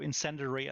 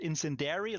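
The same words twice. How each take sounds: First: It is said with neither journal nor dairy sounds. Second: It is said with an ending like dairy. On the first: The speaker calls it right. "is the way you pronounce it" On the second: The speaker calls it wrong. "It's also not called incendiary like the milk"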